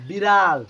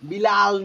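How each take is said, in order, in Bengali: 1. মাঝের ব্যঞ্জনটি ঝাপটা r ধ্বনি। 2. মাঝের ব্যঞ্জনটি সাধারণ l ধ্বনি। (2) "বিলাল না"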